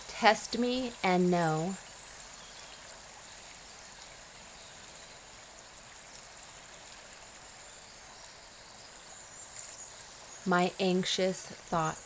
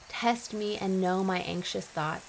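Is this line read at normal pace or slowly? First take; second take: slowly; normal. First: It is read at a slow pace. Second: It is read at a normal pace.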